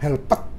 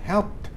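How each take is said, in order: First: The ending is an extra syllable, two syllables. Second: The ending is a short consonant, one syllable. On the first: The speaker calls it wrong. "jangan helped" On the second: The speaker calls it right. "cuman keluar suara d gitu"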